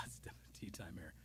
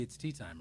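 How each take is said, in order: First: A quick unvoiced whisper of tea time; whispered aside. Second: Said in the usual way. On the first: Real, not acted. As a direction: drop to a whisper, as if to yourself.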